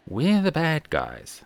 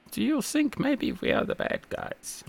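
First: Said in the usual way. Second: High, breathy, deliberately bad German accent quoting a TV sketch. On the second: Quoting a TV sketch to his co-host in a bad German accent. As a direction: ham up a clumsy German accent for the punchline. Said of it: "my very bad German accent there".

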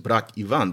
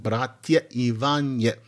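First: "Brat Ivan" with no vowel endings; plain form without endings. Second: Slow "Bratya Ivanye" with the added "ya" and "ye" endings; vocative calling endings. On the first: Teacher showing what it is not, bare "Brat Ivan". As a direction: say "Brat Ivan", both words ending on the consonant. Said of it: "So, not just". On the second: Teacher showing how you call Brother John, drawn-out "Bratya Ivanye". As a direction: draw out "Bratya Ivanye", sounding both final vowels. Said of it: "is that you're calling Brother John". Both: Shown as a demonstration.

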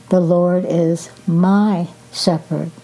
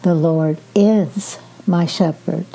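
First: "my" stressed and held before "shepherd"; emphasis on "my", short pause after it. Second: "is" stressed and held, pause after it; emphasis on "is", set apart from "my shepherd". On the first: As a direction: lean firmly on the word "my". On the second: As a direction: lean firmly on the word "is". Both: Shown as a demonstration. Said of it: "emphasize each word at a time".

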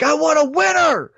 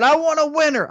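First: Higher mock yell, barely louder; retold yell. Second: Higher mock yell, not much louder; half-hearted stadium yell; retold yell. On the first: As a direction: mimic a fan yelling in the stands. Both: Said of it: "I yelled that really loud".

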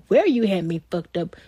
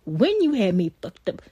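First: "where" hit hard, the rest of the line falls away; stress on where. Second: "when" punched, with the rest said lighter; stress on when. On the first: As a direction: lean on the word "where" to name the place of the mistake. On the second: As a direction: lean on the word "when" to name the moment of the mistake. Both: Real, not acted.

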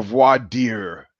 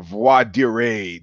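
First: "voir dire" drawn out, ending like "deer"; English-style pronunciation. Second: "voir dire" drawn out, ending in "ray"; French-style pronunciation. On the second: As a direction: say "voir dire" as vwah-dee-RAY, slowly. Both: Shown as a demonstration. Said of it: "depending on how you wanna pronounce it".

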